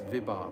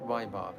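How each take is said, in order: First: The first syllable has the vowel 'i'. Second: The first syllable has the vowel 'ai'. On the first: The speaker calls it right. "it's Vibhav" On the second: The speaker calls it wrong. "I mispronounce this word Vibhav every single time. I say Vaibhav. It's not Vaibhav"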